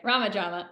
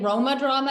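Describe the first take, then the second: First: The first word is said like 'Rah-ma'. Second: The first word is said like 'Roh-ma'. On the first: The speaker calls it right. "which I'm now officially saying properly" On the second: The speaker calls it wrong. "getting Roma drama out of my head and out of my mouth"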